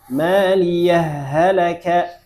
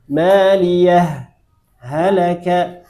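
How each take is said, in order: First: The two words merge together with no pause. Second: A brief breathless pause separates the two words. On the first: "Kemudian idgham" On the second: "Sakta dulu"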